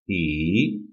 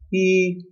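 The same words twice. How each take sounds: First: The pitch dips down and then rises. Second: The pitch stays level throughout the word. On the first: "Third tone" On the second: "First level pitch"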